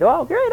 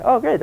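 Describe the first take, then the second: First: Much higher, rising, over-the-top on great; bigger mock delight. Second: High, hammed-up pleasure on great; a vain grin in the voice; mock delight. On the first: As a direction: push the vain glee even further. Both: King's son mocked as flattered.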